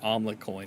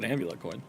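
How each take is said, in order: First: The first word begins with an 'om' sound. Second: The first word begins with an 'am' sound. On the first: The speaker calls it wrong. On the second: The speaker calls it right.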